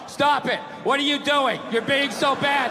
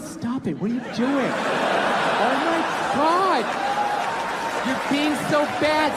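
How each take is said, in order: First: It is read out in a dull, flat tone. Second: It is said in a teasing, playful tone.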